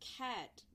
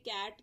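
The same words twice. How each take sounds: First: The first k has a puff of air. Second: The first k has no puff of air. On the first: "कैट की जगह क्या बोलेंगे?" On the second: "के से कैट कहते हैं"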